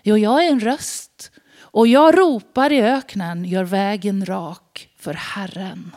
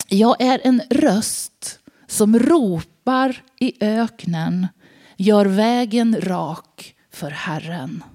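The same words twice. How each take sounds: First: Emphatic prophet reply. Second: Slow, measured proclamation; solemn prophet reply. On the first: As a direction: press the words jag är en röst hard. John restates his answer. (eftertryckligt, bestämt svar) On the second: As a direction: read it like the prophet's weighty answer. John answers with scripture. (långsam, högtidlig profetröst) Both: Acted.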